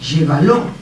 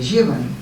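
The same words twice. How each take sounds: First: The final syllable lo carries a secondary stress. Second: The final syllable lo is left unstressed. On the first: "puede poseer un acento secundario" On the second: "en lugar de"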